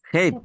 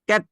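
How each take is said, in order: First: The first consonant has a strong puff of breath. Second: The first consonant has no puff of breath. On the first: The speaker calls it right. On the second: The speaker calls it wrong. "ক্যাট না"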